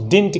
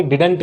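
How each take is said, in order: First: Didn't said as one tight syllable, /dɪnt/, no vowel between d and n; correct pronunciation. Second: Didn't stretched into two syllables, di-dent, with an extra vowel before the n; wrong pronunciation. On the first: Teacher showing students the right way to say didn't. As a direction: clip didn't short, straight from d to nt. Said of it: "तो इसको हम कहेंगे didn't". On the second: Teacher imitating the common mistake to warn students off it. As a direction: split didn't into di-dunt the way learners do. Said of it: "ना कि didn't कहेंगे". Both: Shown as a demonstration.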